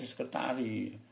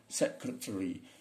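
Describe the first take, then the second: First: It is said with Indonesian-style vowels and syllables. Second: It is said with English-style vowels and syllables. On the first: The speaker calls it wrong. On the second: The speaker calls it right.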